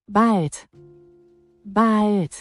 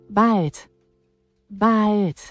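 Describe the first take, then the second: No difference in how they are said.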